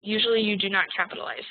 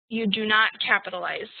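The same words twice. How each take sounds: First: Said in the usual way. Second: Not pressed a little harder; stress on not. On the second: Shown as a demonstration. Teacher stressing "not" to the class. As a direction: lean on the word "not" slightly.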